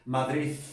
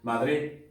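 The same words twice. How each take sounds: First: The final d sounds like a th sound. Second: It is said in an Andalusian accent. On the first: "¿Cómo sería en Madrid?" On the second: "¿cómo sería en andaluz?"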